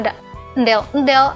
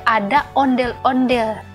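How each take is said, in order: First: The word is pronounced with childish baby-talk sounds. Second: The word is pronounced fully in its adult form. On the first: The speaker calls it wrong. "Jangan bilang" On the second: The speaker calls it right. "bilang aja"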